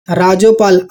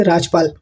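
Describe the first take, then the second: First: राजोपाल with an extra o sound after ज; wrong reading. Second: राजपाल with no vowel after ज; correct reading. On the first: Teacher showing students the wrong way to read it. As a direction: say राजोपाल inserting a vowel after ज. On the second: Teacher giving students the right reading. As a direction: say राजपाल, ज clipped bare. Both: Shown as a demonstration. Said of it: "ऐसा तो नहीं पढ़ेंगे हम".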